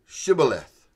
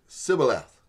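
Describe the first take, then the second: First: Shibboleth with a clear "sh" at the start; the Gileadite test word Shibboleth, with "sh"; Shibboleth said right. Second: Sibboleth with a plain "s" and no "sh"; an Ephraimite failing the test, Sibboleth with "s"; the Ephraimite way, without the H. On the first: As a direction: say Shibboleth, sh as in shoe. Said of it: "could not pronounce the H in Shibboleth". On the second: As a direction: say Sibboleth, a hissed s, never sh. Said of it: "they would say it Sibboleth". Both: Shown as a demonstration.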